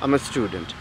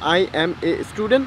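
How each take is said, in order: First: "I am" is shortened into one syllable. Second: "I am" is said as two full words.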